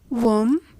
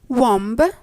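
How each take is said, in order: First: No b sound is heard at the end. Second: A b sound is heard at the end. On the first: The speaker calls it right. "The B is a silent letter" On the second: The speaker calls it wrong. "That's not exactly the expected reply from you"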